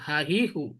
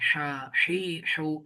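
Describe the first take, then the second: First: The h is a plain, light breath. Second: The h is breathed from deep in the throat. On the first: "এটা নর্মাল হা হি হু" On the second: "ওইটা ভিতর থেকে উচ্চারণ করতে হবে"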